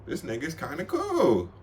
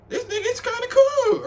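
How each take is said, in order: First: Said in the usual way. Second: Very high, squeaky repeat; squeaky excited. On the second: Retold or imitated. Thinking the guy is cool, in a very high squeak. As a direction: squeak it out with delight. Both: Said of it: "I'm like".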